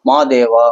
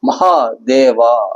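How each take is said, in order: First: The h sound in the middle is dropped. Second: The h sound in the middle is pronounced. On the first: This is the easier Tamil form. "மாதேவா அப்படின்னு சொல்லுவாங்க. இது சுலபமா இருக்கு" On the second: This is the harder Sanskrit form. "அந்த ஹான்னு உச்சரிக்க மாட்டாங்க தமிழர்கள்லாம்"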